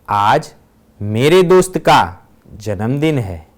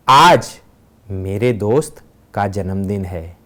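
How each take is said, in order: First: The stress is on मेरे दोस्त का. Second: The stress is on आज.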